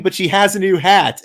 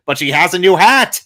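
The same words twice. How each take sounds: First: Said in the usual way. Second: Retold yell, loud and rising at the end; mock yell, pushing up on the last word; Smithers. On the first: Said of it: "And then Smithers just yells". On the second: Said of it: "Smithers just yells".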